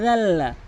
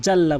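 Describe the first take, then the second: First: Tongue tip at the teeth, জাল্লা as "dhalla"; correct dhal. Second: জাল্লা with a hard "j"; wrong J sound. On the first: Teacher showing what must be said, জাল্লা with dh. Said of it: "বলতে হবে জাল্লা". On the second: Teacher showing the common error, জাল্লা with J. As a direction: say জাল্লা quickly with a Jim. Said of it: "জিমের উচ্চারণ করা যাবে না". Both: Shown as a demonstration.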